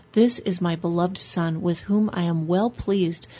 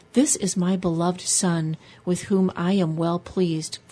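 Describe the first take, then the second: No difference in how they are said.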